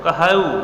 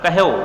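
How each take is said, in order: First: The final vowel is drawn out long. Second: The final vowel is clipped short. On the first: The syllable counts as two beats. "कहेऊ जब कहा जाता तो इस तरह से मात्रा लगता" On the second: The syllable counts as one beat. "लघु वर्ण की तरह उच्चारित हो रहा है"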